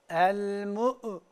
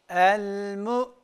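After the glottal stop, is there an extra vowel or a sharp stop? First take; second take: extra vowel; sharp stop. First: An extra vowel sound follows the glottal stop. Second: The sound stops sharply at the glottal stop. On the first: The speaker calls it wrong. "herhangi bir uygulama yapmıyoruz" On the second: The speaker calls it right. "bakınız, el-mu hapsettim"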